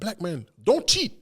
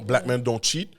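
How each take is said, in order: First: It is a command, pausing after black men. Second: It is said as a plain statement, no pause.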